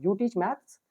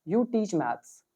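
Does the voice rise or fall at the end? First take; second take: rise; fall. First: It is said as a question, rising. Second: It is said as a statement, falling.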